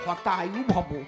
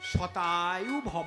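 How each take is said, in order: First: The first word begins with an 'h' sound. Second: The first word begins with an 'sh' sound. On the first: May you die soon. The speaker calls it wrong. "সউচ্চারণ হয় না যেই প্রণাম দেশে উনি কয় হতায়ু ভব" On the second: May you live a hundred years. The speaker calls it right. "তার সংস্কৃত কি শতায়ু ভব"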